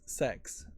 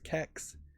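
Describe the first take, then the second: First: It is one word starting with an S sound. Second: It is one word starting with a K sound. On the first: "I wouldn't really ever pronounce it as a United Statesian as sex" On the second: "with a hard K sound as kex"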